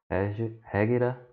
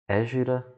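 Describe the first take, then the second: First: The word is pronounced the Arabic way. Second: The word is pronounced the Portuguese way. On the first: "eu acho que em árabe deve ser" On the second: "falando de maneira portuguesa"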